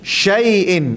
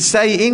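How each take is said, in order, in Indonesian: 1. Kata ini diawali dengan bunyi sh. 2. Kata ini diawali dengan bunyi s biasa. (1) "Syai'in sy" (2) "Jangan bunyi s saja. Ada orang baca"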